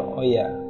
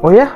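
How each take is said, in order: First: It sounds calm, understanding and accepting. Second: It sounds excited and enthusiastic. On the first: The listener understands and accepts it. "ada yang memaklumi gitu" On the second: The listener is thrilled by the news. "Ada yang ada yang excited"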